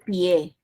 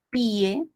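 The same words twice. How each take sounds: First: The stress falls on the e, one syllable. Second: The stress falls on the i, two syllables. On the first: "otra cosa es decir pie" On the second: "Es grave"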